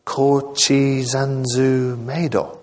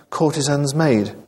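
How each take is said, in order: First: Put-on slow, puzzled Japanese-accented echo; Japanese-accented English, vowels added at word ends. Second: Said in the usual way. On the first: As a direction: sound out the foreign words slowly in a Japanese accent. Baffled foreigner echoes English phrase.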